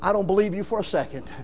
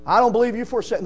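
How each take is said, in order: First: Said in the usual way. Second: Fast, chuckling "I don't believe you for a second"; laughing repeat. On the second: Shown as a demonstration. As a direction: toss it off with a laugh.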